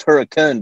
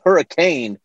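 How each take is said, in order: First: Hurricane said as HURRI-kun; Utah pronunciation. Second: Hurricane with a full CANE ending; as spelled. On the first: Guest explaining the Utah way, hurricane ending in short kun. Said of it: "pronounced hurricane because we're Utah". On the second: Guest showing how the town is spelled, hurricane with full CANE. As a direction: say hurricane ending to rhyme with rain. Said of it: "it's spelled hurricane". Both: Shown as a demonstration.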